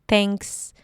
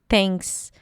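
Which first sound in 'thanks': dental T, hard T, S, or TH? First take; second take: dental T; dental T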